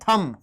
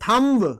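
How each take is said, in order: First: The final b is silent. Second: The final b is pronounced. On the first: The speaker calls it right. "थम होता है" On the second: The speaker calls it wrong. "गलत बोलते हो"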